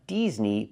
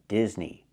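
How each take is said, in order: First: The first vowel is a long E sound. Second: The first vowel is a short I sound. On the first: The speaker calls it wrong. "Not Disney, ... I cannot use the long E sound like green beans" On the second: The speaker calls it right. "but Disney. ... I need the short I sound like this is"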